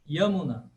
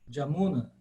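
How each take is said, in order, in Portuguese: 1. A palavra começa com som de Y. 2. A palavra começa com som de J. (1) "mas em sânscrito clássico" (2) "Bengala hoje se fala de fato Jamuna"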